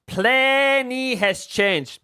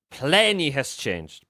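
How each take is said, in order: First: "Plenty has changed" said high and very slowly; dramatic high drawl. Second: Said in the usual way. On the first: Shown as a demonstration. Streamer dramatically repeats his point to chat, high and slow. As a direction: stretch "Plenty" high and drawn out for effect.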